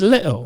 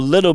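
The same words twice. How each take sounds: First: The middle consonant sound is dropped. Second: The middle consonant sound is fully pronounced.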